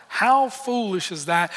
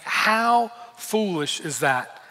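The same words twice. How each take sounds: First: Rising, questioning disbelief; incredulous. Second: Slow, thoughtful, half to himself; musing disbelief. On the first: Preacher asking the room about the servant, incredulous rise. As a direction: toss it out to the congregation. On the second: Preacher musing on the foolish servant, slow and wondering. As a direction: let the disbelief sink in slowly. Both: Real, not acted. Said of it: "I read that verse and I think".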